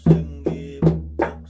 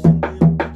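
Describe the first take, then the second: First: It is said very slowly. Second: It is said very fast.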